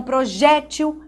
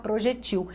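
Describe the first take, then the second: First: "projétil" stressed pro-JÉ-til; tônica na penúltima. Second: "projetil" stressed pro-je-TIL; tônica na última. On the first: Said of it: "é acentuada". ("projétil" com tônica no JÉ) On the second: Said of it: "se você tirar o acento". ("projetil" com tônica no TIL) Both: Shown as a demonstration.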